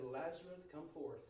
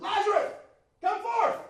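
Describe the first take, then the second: First: Quiet command. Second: Commanding call. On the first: Shown as a demonstration. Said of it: "he didn't have to shout". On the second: Acted. Commanding Lazarus to rise.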